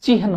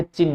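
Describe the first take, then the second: First: चिन्ह said chi-han, h before n; correct h before n. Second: चिन्ह said chinn, long n, no h sound; wrong doubled n. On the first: Teacher giving the exam form, चिन्ह said chi-han. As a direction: sound the h ahead of the n in चिन्ह. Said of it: "चिन्ह होता है". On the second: Teacher showing the exam mistake, चिन्ह said chinn. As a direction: drop the h and hold the n in चिन्ह. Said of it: "चिन्ह नहीं होता". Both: Shown as a demonstration.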